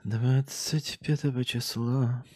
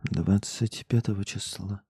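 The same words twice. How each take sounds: First: Slow, drawn out date. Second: Slow. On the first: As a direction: stretch every word slowly. (медленно, протяжно) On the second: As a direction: drawl the date again slowly. (медленно, ниже) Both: Shown as a demonstration.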